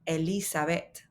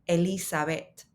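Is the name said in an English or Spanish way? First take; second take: Spanish; Spanish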